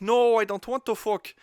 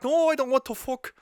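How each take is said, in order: First: Higher, louder mock girlfriend refusing; mock whiny refusal. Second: Much higher, louder mock girlfriend refusing; more exasperated mock refusal. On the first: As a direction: play the girlfriend refusing, pitched up and pushed. Acted couple's quarrel, her refusal. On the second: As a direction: refuse her a second time, pitched way up and pushed harder. Acted couple's quarrel, repeated refusal.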